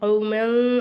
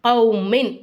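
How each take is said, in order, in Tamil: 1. முடிவு மங்கலாகவும் தெளிவில்லாமலும் ஒலிக்கிறது. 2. 'min' என்ற முடிவு தெளிவாகவும் தனித்தும் ஒலிக்கிறது. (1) "கௌமன் அப்படின்னு சொல்லாம" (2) "நல்லா வெளிப்படையா மின்"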